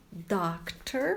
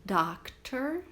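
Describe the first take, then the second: First: "doctor" with an open "dahk" vowel, rising; open O sound. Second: "Doctor" with a rising tune; model pronunciation. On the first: Teacher pointing out the O in doctor. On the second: Teacher modelling profession words for students. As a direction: say "Doctor" clearly for repetition. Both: Shown as a demonstration. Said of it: "olha a pronúncia do O".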